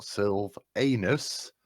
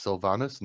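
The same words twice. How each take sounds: First: Sylvanus drawn out slowly as the wrong version; wrong name pronunciation. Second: Sylvanas said as the proper name, at normal pace; correct name pronunciation. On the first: Player showing the table what not to say, slow mispronounced "Sylvanus". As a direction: stretch out "Sylvanus" as the mistaken form. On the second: Player setting the name straight, correct "Sylvanas". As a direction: say "Sylvanas" as the correct form, without drawing it out. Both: Shown as a demonstration. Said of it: "it is pronounced Sylvanas, not Sylvanus".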